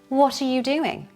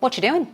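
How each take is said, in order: First: All words are kept but run smoothly together. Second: Words are dropped and squeezed into a casual blur. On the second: "Very informal"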